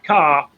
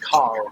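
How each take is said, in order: First: It is said in a British accent. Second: It is said in a North American accent. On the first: "I say that I drive my car" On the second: "a North American drives their car"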